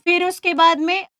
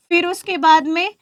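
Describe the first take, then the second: No difference in how they are said.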